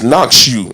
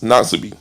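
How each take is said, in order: First: The name is said with a 'shoe' sound inside. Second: The name is said without a 'shoe' sound. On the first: The speaker calls it right. "You gotta put shoe in there" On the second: The speaker calls it wrong. "It's not"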